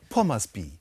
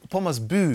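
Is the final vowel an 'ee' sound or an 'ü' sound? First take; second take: ee; ü. First: The final vowel is an unrounded 'ee' sound. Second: The final vowel is a rounded 'ü' sound. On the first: The speaker calls it wrong. "dass das Y am Ende, denke ich immer mit I eigentlich. Aber nee" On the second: The speaker calls it right. "Pommersbü, genau"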